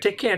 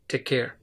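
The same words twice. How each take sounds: First: It is said with a nasal sound. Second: It is said in a deep voice. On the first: It does not leave a good impression. The speaker calls it wrong. "If you use very nasal sound" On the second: It leaves a good impression. The speaker calls it right. "kind of kind of deep voice like take care"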